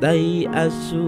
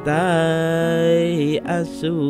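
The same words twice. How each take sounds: First: The vowel is kept short, not lengthened. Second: The vowel is drawn out long. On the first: The speaker calls it right. "cara membacanya adalah" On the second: The speaker calls it wrong. "bukan membaca seperti"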